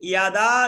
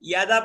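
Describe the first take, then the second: First: The second syllable's vowel is held long. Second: The second syllable's vowel is cut short. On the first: The speaker calls it right. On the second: The speaker calls it wrong.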